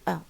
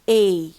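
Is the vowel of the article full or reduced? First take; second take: reduced; full. First: The article is said with a reduced weak vowel. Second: The article is said with a full strong vowel. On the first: "If you pronounce it in its weak form" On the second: "if you pronounce it in its a strong form"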